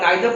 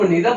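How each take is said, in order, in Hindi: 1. पहला स्वर 'eye' की तरह बोला जाता है। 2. पहला स्वर 'ee' की तरह बोला जाता है। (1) "नाइदर पढ़े फिर भी सही है" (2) "आप इसको नीदर पढ़े फिर भी सही है"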